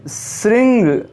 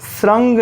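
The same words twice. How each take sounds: First: श्रृंग said as "sring", with i; correct vowel. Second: श्रृंग said as "srang", with a; wrong vowel. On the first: Teacher correcting the word, sring. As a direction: give श्रृंग a clear i. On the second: Teacher showing the mispronunciation, srang. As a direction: say श्रृंग with a short a. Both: Shown as a demonstration. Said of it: "श्रृंग नहीं".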